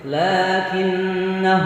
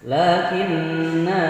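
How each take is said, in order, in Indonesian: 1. Vokal akhirnya pendek, karena langsung tersambung ke kata berikutnya. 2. Vokal akhirnya dibaca panjang sebelum huruf henti. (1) "kalau diwasalkan dibaca pendek" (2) "Lakinna kalau wakaf"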